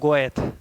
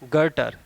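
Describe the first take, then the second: First: The name is said 'go-eth' with an oh vowel. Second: The name is said 'ger-ter' with an er vowel. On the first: The speaker calls it wrong. "ऐसे तो नॉर्मली समझ में आता है" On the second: The speaker calls it right. "इसका सही प्रोनाउंसिएशन है गर्टर"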